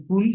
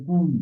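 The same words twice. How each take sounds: First: কুল with a brief u; short vowel. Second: কুল with a drawn-out u; long vowel. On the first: Teacher contrasting two words for learners, short vowel. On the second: Teacher contrasting two words for learners, long vowel. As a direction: hold the u in কুল. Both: Shown as a demonstration. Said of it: "পার্থক্য আছে".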